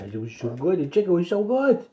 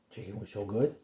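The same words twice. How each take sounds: First: High, cooing sing-song about the chicken. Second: Said in the usual way. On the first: Real, not acted. Father coos to his little one about breakfast, high baby talk.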